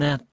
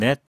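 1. 이 단어는 'th' 소리로 시작해요. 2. 이 단어는 'n' 소리로 시작해요. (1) "that보다는" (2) "mean에 n이 뒤로 밀리면서 net 이렇게 발음했습니다"

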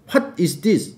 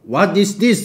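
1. 'what'은 숨이 섞인 h-w 소리로 시작해요. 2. 'what'은 평범한 w 소리로 시작해요. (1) "아빠는 What 이래" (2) "우리 what What is this 이러잖아"

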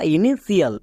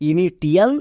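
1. শেষ অংশটি sh আর বাড়তি i দিয়ে বলা হয়: shial। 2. শেষ অংশটি t ধ্বনি দিয়ে বলা হয়: tial। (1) "বা ইনিশিয়াল" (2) "একে অনেকে ভুল করে উচ্চারণ করে ইনিটিয়াল"

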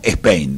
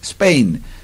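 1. Se añade un sonido e antes de la s. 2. La palabra empieza directamente con el sonido s. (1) "ellos mismos dicen el nombre de su propio país como Spain" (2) "Es Spain"

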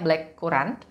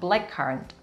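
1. Dibaca sesuai dengan bunyi ejaan bahasa Indonesia. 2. Diucapkan dengan bunyi bahasa Inggris.

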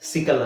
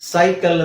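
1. ಮೊದಲ ಸ್ವರ ಹ್ರಸ್ವ 'ih' ಶಬ್ದ. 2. ಮೊದಲ ಸ್ವರ ದೀರ್ಘ 'eye' ಶಬ್ದ. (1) "ಸಿಕಲ್ ಅಂತ ಹೇಳಲ್ಲ" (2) "ಸೈಕಲ್ ಅಂತ ಹೇಳ್ತೀವಿ"

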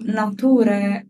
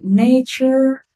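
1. La parola si pronuncia all'italiana. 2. La parola si pronuncia all'inglese. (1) "Non ci siamo" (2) "La pronuncia corretta è"

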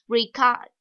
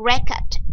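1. Trọng âm nằm ở âm tiết thứ hai. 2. Trọng âm nằm ở âm tiết thứ nhất. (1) "động từ ghi chép, nhấn âm thứ hai" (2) "Danh từ là hồ sơ, nhấn âm thứ nhất"

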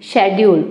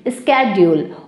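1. यह शब्द sh ध्वनि से शुरू होता है। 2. यह शब्द sk ध्वनि से शुरू होता है। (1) "ब्रिटिश इंग्लिश में कहा जाता है शेड्यूल" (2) "अमेरिकन इंग्लिश में बोला जाता है स्केड्यूल"

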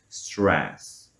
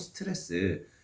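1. 영어식 자음군과 R 앞의 'u'로 발음됩니다. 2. 한국어 음절과 모음으로 발음됩니다. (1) "R 앞에 ... 우를 붙여"

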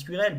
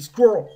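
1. Le mot se dit en deux syllabes. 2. Le mot se dit en une syllabe. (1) "Vous vous dites bah ça se dit squirrel" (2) "bah en fait ça se dit squirrel. C'est une syllabe"

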